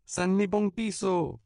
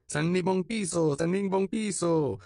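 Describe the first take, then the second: First: Put-on very high, louder, slow pleading child; begging child cries out; pleading cry. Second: Very high, louder, repeated begging chant; chanted, take up the cry together, pleading; chanted, children echoing the begging cry. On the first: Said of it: "cria l'un des enfants suppliants". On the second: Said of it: "les autres reprirent ce cri". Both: A narrator's reading.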